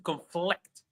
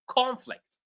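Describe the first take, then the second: First: The stress is on the second syllable. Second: The stress is on the first syllable. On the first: It is used as a verb. "When they are verbs, we stress the second syllable" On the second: It is used as a noun. "when these words are nouns, we stress the first syllable"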